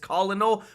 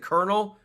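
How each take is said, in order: First: It is said with three syllables, col-o-nel. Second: It is said with two syllables, like kernel. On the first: "if you pronounce it like sound it out" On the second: "we're supposed to pronounce it colonel"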